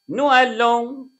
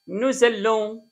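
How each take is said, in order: First: The two words are said separately without z. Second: The two words are linked with a z sound. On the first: "ندي النطق العادي هنا" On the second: "بينطقوا الاس دي يا زد لما يجي بعدها حرف متحرك"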